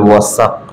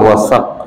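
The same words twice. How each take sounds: First: The middle consonant is an s sound. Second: The middle consonant is not an s sound. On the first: It means a weighing scale. "সিন দিয়ে" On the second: It means trust. "ওয়াসাক মানে হলো ভরসা"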